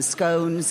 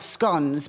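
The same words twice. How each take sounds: First: The vowel is long, as in bones. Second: The vowel is short, as in bonds. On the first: The speaker calls it right. "I too call them scones ... you say bones" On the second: The speaker calls it wrong. "not scones because you don't say bonds"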